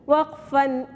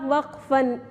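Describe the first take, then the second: No difference in how they are said.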